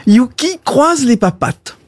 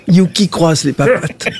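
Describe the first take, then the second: First: Dog command. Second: "Yuki croise les papates" dropped lower, more insistent; repeated dog command. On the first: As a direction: call out "Yuki croise les papates" brightly to a dog. Owner commands dog in joke. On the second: Owner to a disobedient dog, lower repeated command. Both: Acted.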